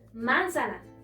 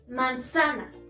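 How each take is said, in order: First: The stress is on the first syllable. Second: The stress is on the middle syllable. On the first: The speaker calls it wrong. "Si estuviera en la antepenúltima, sonaría" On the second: The speaker calls it right. "Si estuviera en la penúltima, sonaría"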